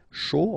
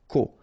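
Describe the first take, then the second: First: The syllable begins with an sh sound. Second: The syllable begins with a k sound. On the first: This is the usual reading of these letters. The speaker calls it wrong. "Normally we should pronounce it sho" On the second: This word is an exception to the usual reading. The speaker calls it right. "but in that case we pronounce it ko"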